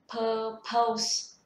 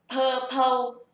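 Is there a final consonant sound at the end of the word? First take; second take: yes; no. First: The word ends with a final s sound. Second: The word ends without a final consonant sound. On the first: The speaker calls it right. "đọc có âm cuối, âm S" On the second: The speaker calls it wrong. "không có âm cuối"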